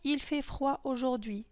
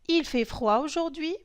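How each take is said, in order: First: It is said with statement intonation. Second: It is said with question intonation. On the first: It states a fact. "Pour la phrase il fait froid aujourd'hui" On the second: It asks a question. "l'intonation va changer"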